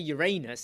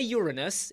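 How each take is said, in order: First: It sounds like the phrase 'your anus'. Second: It sounds like the word 'urinal'. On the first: It evokes the back of the body. "it's the back end" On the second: It evokes the front of the body. "it's the front end"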